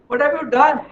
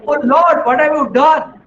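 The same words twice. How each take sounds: First: Higher, the anguish sinking back; softer repeated lament. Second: Higher, louder anguished plea; anguished cry to the Lord. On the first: Man echoes his plea to Lord, fading lament. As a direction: repeat it, the cry fading into grief. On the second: Man who lost everything cries out to Lord, anguished. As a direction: cry out to God over the lost family. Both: Acted. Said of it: "he starts crying".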